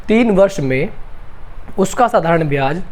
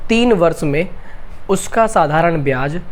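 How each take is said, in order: Both takes have the same delivery.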